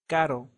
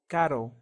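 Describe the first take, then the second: First: The r is a quick Spanish tap. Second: The r is a quick Spanish tap.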